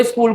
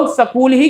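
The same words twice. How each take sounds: First: स्कूल as skool, S and K joined; one-syllable स्कूल; standard pronunciation. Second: स्कूल said as sa-kool, Haryanvi style; two-syllable Haryanvi sa-kool for स्कूल; Haryanvi pronunciation. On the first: Shown as a demonstration. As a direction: say स्कूल with no vowel between S and K. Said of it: "स्कूल कहते थे". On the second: Retold or imitated. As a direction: put a short vowel between S and K in स्कूल. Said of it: "वो हरियाणा से belong करते थे".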